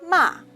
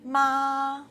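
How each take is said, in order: First: The pitch falls sharply from high to low. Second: The pitch stays high and level. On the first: "The last one is a falling tongue" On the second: "High-level tongue, the first tongue"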